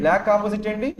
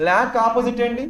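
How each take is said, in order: Both takes have the same delivery.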